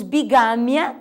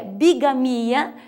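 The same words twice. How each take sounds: First: Bigamia said bi-GA-mia; Spanish stress. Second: Bigamia said slowly, bi-ga-MI-a; Portuguese stress. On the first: Teacher listing Spanish words, bigamia stressed on GA. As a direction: lean on GA in bigamia. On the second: Teacher giving the Portuguese counterpart, bigamia stressed on MI. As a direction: lean on MI in bigamia. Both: Shown as a demonstration. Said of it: "difere a sílaba tônica".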